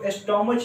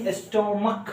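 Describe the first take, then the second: First: The word ends with a 'ch' sound. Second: The word ends with a 'k' sound. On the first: The speaker calls it wrong. "अक्सर लोग इसको एस्टोमच पढ़ते हैं, जो एस्टोमच नहीं" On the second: The speaker calls it right. "एस्टोमक है"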